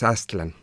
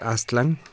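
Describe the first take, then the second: First: The stress is on the first syllable. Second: The stress is on the last syllable. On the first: The speaker calls it right. "se pronuncian de manera grave. Entonces lo correcto es Aztlán" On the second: The speaker calls it wrong. "Aztlán es lo que nos enseñaron a decir desde chiquitos"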